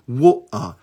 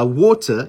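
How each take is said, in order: First: The middle T is replaced by a glottal stop. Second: The middle T is pronounced as a clear T.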